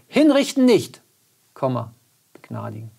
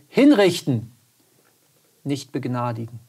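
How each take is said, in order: First: The pause comes right after 'nicht'. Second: The pause comes right after 'hinrichten'. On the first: The person is not to be executed but pardoned. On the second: The person is to be executed, not pardoned. "wo es nur um das Komma geht"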